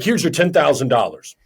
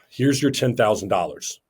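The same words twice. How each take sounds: First: It is said in an excited, quick way. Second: It starts on a breath and ends low.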